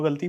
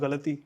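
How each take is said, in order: First: The word is said in a loose everyday way. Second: The word is said in a careful, precise way. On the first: The speaker calls it wrong. "हम गलती बोलते हैं" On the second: The speaker calls it right. "It's गलती"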